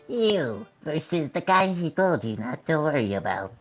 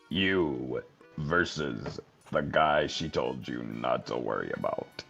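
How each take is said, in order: First: It is said in a high voice. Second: It is said in a normal voice.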